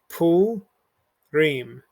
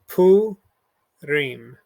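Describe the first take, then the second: The two takes are said the same way.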